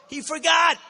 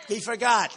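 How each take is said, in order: First: Loud mocking jab at the rival; mocking shout. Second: Said in the usual way. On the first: Real, not acted. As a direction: hurl it at the crowd, mocking. Mocking repeat of rival's excuse.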